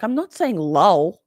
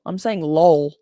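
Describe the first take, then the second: First: "lol" said as the L U L spelling would sound; slow, stressed "lol" as the version being rejected; mispronounced lol. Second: "lol" said as one word, her own way; intended lol. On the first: Host teases chat about their L U L spelling, "lol" said their way. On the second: Host corrects chat's L U L spelling, "lol" said her intended way. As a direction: land firmly on "lol" as the corrected version. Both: Shown as a demonstration. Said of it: "I love how you all spell it L U L".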